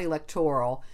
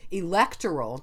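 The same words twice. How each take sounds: First: The stress falls on the third syllable, 'tor'. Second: The stress falls on the second syllable, 'lec'. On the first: This is the more recent pronunciation. "not electoral ... That's more recent, the stress on the or part" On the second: This is the original, older pronunciation. "the original things was it's electoral"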